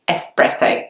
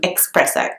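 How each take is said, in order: First: It begins with a plain s sound. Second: It begins with a ks sound. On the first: The speaker calls it right. "the word should be pronounced espresso" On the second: The speaker calls it wrong. "rather than espresso"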